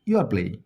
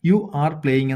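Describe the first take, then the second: First: You are is shortened into one syllable. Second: You are is said as two full words. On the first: The speaker calls it right. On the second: The speaker calls it wrong.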